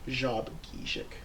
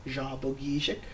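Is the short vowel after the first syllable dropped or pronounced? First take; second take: dropped; pronounced. First: The short vowel after the first syllable is dropped. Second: A short vowel is heard after the first syllable. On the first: This is how the name is said today. "and now it's pronounced" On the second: This is the older way the name was said. "back in the day, he probably pronounced it"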